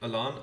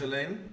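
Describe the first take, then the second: First: The name is said like 'Alan'. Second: The name is said like 'Elaine'. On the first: "I've heard it both as Elaine and Alan" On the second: "I've heard it both as Elaine and Alan"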